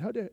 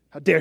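First: It is said in a British accent. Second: It is said in the speaker's ordinary accent.

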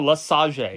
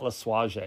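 First: The name is said without a W sound. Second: The name is said with a W sound. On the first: The speaker calls it right. "No, Lesage" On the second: The speaker calls it wrong. "not Lesage. That'd be weird. There's no W in your name"

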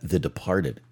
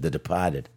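First: It is said in a general American accent. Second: It is said in a Boston accent.

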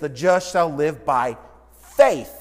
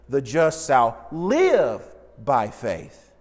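First: The word faith is stressed. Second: The word live is stressed. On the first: "the emphasis is on the word faith" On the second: "the focus is on the word live"

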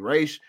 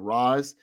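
First: The name ends with an sh sound. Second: The name ends with an s sound. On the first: This is how Arabic speakers say it. "a lot of people who are in like the Arabic language say it should be Raish" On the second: This is how the original creators say it. "the original creators of Ra's al Ghul pronounced it Ra's"

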